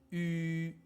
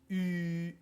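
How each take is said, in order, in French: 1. La voyelle se dit plus fort, avec plus de force. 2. La voyelle se dit doucement, sans forcer.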